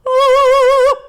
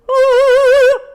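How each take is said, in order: First: The vowel has a balanced, in-between resonance. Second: The vowel has a dark, deep resonance. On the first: "right in the middle" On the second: "more darkness"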